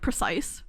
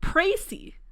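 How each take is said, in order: First: It is said like the English word precise. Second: It is said with a final ee sound, pray-see. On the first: The speaker calls it wrong. "Is it just like precise?" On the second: The speaker calls it right. "Oh, précis"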